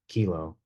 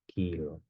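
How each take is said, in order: First: The k is released with a puff of air. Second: The k is released without a puff of air. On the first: "you let out a little air" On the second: "there's no aspiration"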